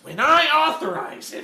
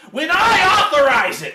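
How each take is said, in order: First: It is said flatly, with little intensity. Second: It is said forcefully, with strong intensity.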